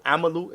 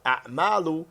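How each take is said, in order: First: Amalu with short vowels, running straight through; singular form. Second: A'malu with a catch after the first a, long second a; plural form. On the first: Teacher naming the singular for students, singular pronunciation. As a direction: say Amalu as "A-ma-lu", no catch or long vowel. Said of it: "Amalu is singular". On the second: Teacher naming the plural for students, plural pronunciation. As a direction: say A'malu as "A'-MAA-lu", weight on the middle. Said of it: "is plural". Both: Shown as a demonstration.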